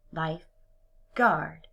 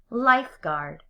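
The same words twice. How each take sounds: First: Slow, "lifeguard" as two words; split slowly. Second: Said in the usual way. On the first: Shown as a demonstration. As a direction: pull "lifeguard" apart slowly. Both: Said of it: "break it apart into two separate words".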